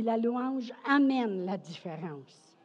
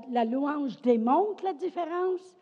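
First: "amène" punched, then falling to a close; stress on AMÈNE. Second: "démontre" leaned on, phrase left open for the second half; stress on DÉMONTRE. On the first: Preacher completes the summary, stress on "amène". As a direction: land the second point on "amène". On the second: Preacher sums up the first point, stress on "démontre". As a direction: set up the contrast by weighting "démontre". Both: Real, not acted.

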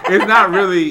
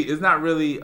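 First: Words bubbling through laughter; laughing. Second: Said in the usual way. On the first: Real, not acted. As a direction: say it while cracking up. Laughing mid-sentence.

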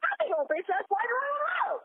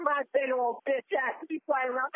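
First: High-pitched indignant shout; worked-up, high yelling; exasperated outburst. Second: Said in the usual way. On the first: Acted. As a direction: repeat it in a rising, outraged holler. Exasperated repeat of the phrase.

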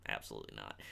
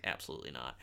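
First: Even lower, quieter aside; muttered aside. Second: Low quiet aside under the breath; dropped, quiet rebuttal; muttered aside. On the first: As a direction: sink the voice right down. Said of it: "repeated muttered aside". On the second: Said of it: "muttered aside during review". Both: Real, not acted.

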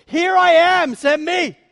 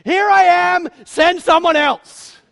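First: A loud, high, bold call to serve; volunteer eagerly, full voice; eager offer. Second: Loud, high, then slowly dragged out; reluctant dodge. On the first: Isaiah before the Holy One, boldly volunteering loud. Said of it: "when he stands before the Holy One". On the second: Moses at the burning bush, loudly backing out slowly. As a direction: offer and then back out, dragging it. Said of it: "Moses stands before the burning bush". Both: Acted.

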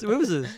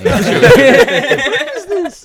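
First: Said in the usual way. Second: Laughing. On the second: Real, not acted. Laughing out the question.

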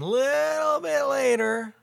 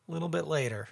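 First: High drawn-out. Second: Said in the usual way. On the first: Acted. High, stretched repeat of phrase.

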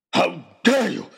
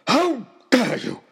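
First: Loud, higher furious roar. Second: Much higher, louder, slower furious roar; full roar. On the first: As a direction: roar it at him. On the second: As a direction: let the rage peak on the repeat. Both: Acted. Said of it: "roared Oxshott".

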